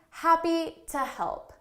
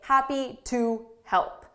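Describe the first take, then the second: First: The word 'to' is reduced and unstressed. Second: The word 'to' is fully pronounced and stressed. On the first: The speaker calls it right. "So to say naturally" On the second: The speaker calls it wrong. "That's just a little too robotic"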